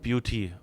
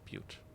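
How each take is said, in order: First: The name is said like the word beauty. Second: The name is said as one syllable. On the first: The speaker calls it wrong. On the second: The speaker calls it right.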